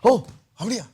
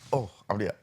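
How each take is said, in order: First: It is said with lively, excited energy. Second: It is said flatly, without any excitement. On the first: The speaker is genuinely interested. The speaker calls it right. "ஒரு excitement அப்படின்னா ஷோன்னா" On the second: The speaker seems uninterested. The speaker calls it wrong. "அப்படின்றது இல்லாமல் ... அது ரொம்ப கேவலமாக இருக்கிற மாதிரி"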